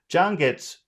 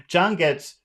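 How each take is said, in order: The two takes are said the same way.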